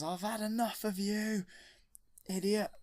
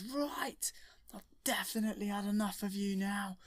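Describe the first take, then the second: First: Higher, louder furious outburst; angry Vader. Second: High, fed-up hero voice; squeaky, exasperated put-on Luke; kid doing Luke. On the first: Retold or imitated. Darth Vader turning on the Emperor, loud and furious. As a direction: snap it at him in a rage. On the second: Luke telling the Emperor he's had enough, high and fed up.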